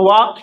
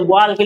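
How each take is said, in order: First: वॉक with no L sound; silent L. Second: वॉल के with the L pronounced; L wrongly sounded. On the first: Teacher showing how walk is read, वॉक with silent L. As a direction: say वॉक straight from vowel to K, L dropped. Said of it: "इस एल को इसमें नहीं पढ़ते". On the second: Teacher showing the mistake in walk, वॉल के with audible L. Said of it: "इस एल को नहीं पढ़ना है". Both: Shown as a demonstration.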